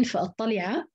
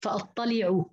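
First: فأطلع ending open, fa-attali'a; final a on ayn. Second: فأطلعوا ending rounded, fa-attali'u; final u on ayn. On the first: Teacher showing Hafs's reading, open final ayn. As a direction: end فأطلع on a short a. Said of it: "بنصب العين". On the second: Teacher showing other readers' form, rounded final ayn. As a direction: end فأطلعوا on a short u. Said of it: "قرأوها بالرفع". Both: Shown as a demonstration.

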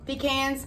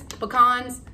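First: Pecans said as pee-KANZ; pecans with a long ee and a flat a; first try at pecans, pee-KANZ; one way to say pecan. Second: Pecans said as puh-KAHNZ; second try at pecans, puh-KAHNZ; another way to say pecan. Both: Shown as a demonstration. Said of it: "however you say it".

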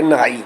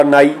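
First: "ਨਹਾਈ" with a half h after the n. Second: "ਨਾਈ" with a plain n straight into long aa. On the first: Teacher shows the bathing word, half h sounded under n. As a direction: breathe an h between n and aa in "ਨਹਾਈ". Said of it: "ਅੱਧੇ ਹਾਹੇ ਦਾ ਉਚਾਰਨ ਕਰਕੇ". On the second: Teacher names the barber for contrast, plain n without h. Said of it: "ਨਾਈ ਤੋਂ ਮਤਲਬ ਹੈ ਹਜਾਮਤ ਕਰਨ ਵਾਲਾ". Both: Shown as a demonstration.

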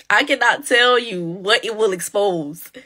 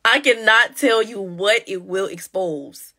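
First: Said in the usual way. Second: "I cannot tell you what it will expose" slowed down, every word weighed; slow emphatic repeat. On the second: Shown as a demonstration. Warning viewers about budgets, slow and weighty. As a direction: say it again slowly, letting it sink in.

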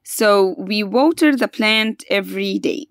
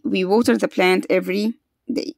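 First: Slowly, each word laid out for pupils; slow model sentence. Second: Said in the usual way. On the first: Shown as a demonstration. Teacher to pupils, slowly modelling the right answer. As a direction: stretch it out so the class can follow.

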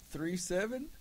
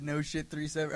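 First: Confused query, pitched up at the end; puzzled echo. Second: Said in the usual way. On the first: Retold or imitated. Everyone answers a catchphrase they've never heard, puzzled. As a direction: imitate a baffled group, rising into a question. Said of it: "Everyone's like". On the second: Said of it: "first time he said".

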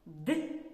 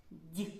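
First: Д as hard "d" for repeating; short, isolated Д, not palatalized; hard consonant. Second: Д as palatalized "d'" for repeating; short, isolated Д with raised tongue; soft consonant. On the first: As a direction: model a firm hard Д with a dark release. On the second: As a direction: model a soft Д like "dyi". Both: Shown as a demonstration. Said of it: "Повторюйте за мною".

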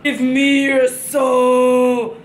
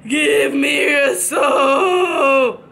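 First: Drawn-out menacing demand; slow scary voice. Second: Drawn-out spooky demand; slow scary voice. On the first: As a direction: stretch each word like a ghoul. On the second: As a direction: draw it out like a haunting. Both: Pretend. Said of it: "do I not look scary".

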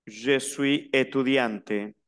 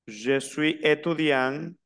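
First: Slow étudiante, falling, T pronounced; sounded T ending. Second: Slow étudiant, rising, without the T; silent final T. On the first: Teacher repeats the feminine for students, slow, étudiante with audible T. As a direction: finish étudiante on a clear T. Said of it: "la que termina es la E, no la T". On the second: Teacher repeats the masculine for students, slow, étudiant with no T. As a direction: end étudiant on the nasal vowel. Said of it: "El masculino no se pronuncia la T". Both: Shown as a demonstration.

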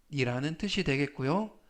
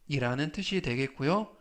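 No difference in how they are said.

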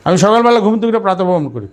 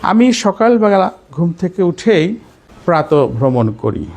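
First: Same sentence run through briskly in one breath; fast, continuous tune, peaking early and dropping on করি; changed tune, quicker. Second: Unhurried phrases, rising on উঠেই, then falling on করি; measured tune with pauses. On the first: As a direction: rattle it off without pauses, falling at the end. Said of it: "কথা কিন্তু একই, সুর change". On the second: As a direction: pause after উঠেই and stretch প্রাতঃভ্রমণ slowly. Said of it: "সুর change হয়ে যাচ্ছে". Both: Shown as a demonstration.

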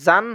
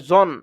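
First: জান with an open "aa" vowel; wrong open vowel. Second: জন with a rounded "o" vowel; correct rounded vowel. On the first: Teacher warns students of a mistake, জান with open "aa". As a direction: say জান as "zaan", unrounded. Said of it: "জান হবে না". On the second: Teacher corrects students, জন with rounded "o". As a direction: say জন as heavy "zon". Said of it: "এটা হবে জন". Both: Shown as a demonstration.

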